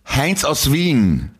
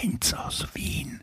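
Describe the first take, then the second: First: It is said louder still. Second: It is said quietly.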